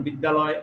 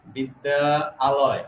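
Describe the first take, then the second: First: Said in the usual way. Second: বিদ্যা, a pause, then আলয়, drawn out as two words; split slowly. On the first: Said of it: "তাড়াতাড়ি বলতে পারি". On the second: Shown as a demonstration. Teacher contrasts slow split form with quick বিদ্যালয়, said in two parts. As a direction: say "বিদ্যা" and "আলয়" apart so the word slows down. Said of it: "লয়টা ধীর হয়ে যায়, slow হয়ে যায়".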